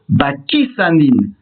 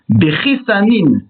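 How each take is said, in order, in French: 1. Cela commence par « ba » et finit par « sanin ». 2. Cela commence par « be » et finit par « sanin ». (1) "avec un article défini et un qamas sous le samer" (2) "sans article défini et avec un qamas sous le samer"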